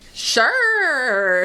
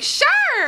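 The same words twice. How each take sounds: First: It is said in a normal voice. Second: It is said in a high-pitched chirp.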